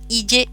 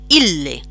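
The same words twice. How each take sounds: First: The double L is said as one single sound. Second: The double L is split between two syllables. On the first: The speaker calls it wrong. "nunca, nunca, nunca eh, pronunciéis esto ille" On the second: The speaker calls it right. "la primera sílaba sería il y la segunda le"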